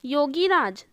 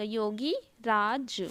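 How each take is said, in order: First: Said in the usual way. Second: Yogi राज slowly, "yogi... raaj"; slow, lower, separated Yogi राज; broken into parts. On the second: Shown as a demonstration. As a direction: dictate Yogi राज with a gap between the parts. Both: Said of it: "छोटी की मात्रा हो जाएगा".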